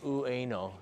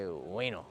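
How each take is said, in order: First: It is said slowly, with every syllable clear. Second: It is said fast, sounding like "way no". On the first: "Nobody actually says Ueno" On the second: "You can say it really fast. It sounds like way no"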